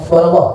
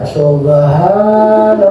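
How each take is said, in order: First: It is said very quickly. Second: It is said slowly and drawn out.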